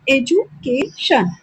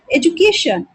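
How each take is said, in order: First: education slowly broken up as एजु-के-शन; syllable by syllable. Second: Said in the usual way. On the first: Shown as a demonstration. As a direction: pause between the parts of education. (Education को हिस्सों में तोड़कर, धीरे) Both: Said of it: "तो ये three syllable भी हो गया".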